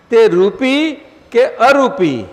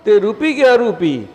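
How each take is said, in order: First: Slow, louder read of "તે રૂપી કે અરૂપી?" with weight on અરૂપી; slow emphatic quote. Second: "તે રૂપી કે અરૂપી?" at normal speed, slightly raised; brisk quote. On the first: Guru reading the devotee's question aloud, slow and weighty. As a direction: drag out "તે રૂપી કે અરૂપી?" and lean on અરૂપી. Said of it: "એમને પૂછ્યું છે આ ઈશ્વરભાઈએ". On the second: Guru quickly restating the devotee's question to the hall. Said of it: "ધર્મ શું?". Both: Retold or imitated.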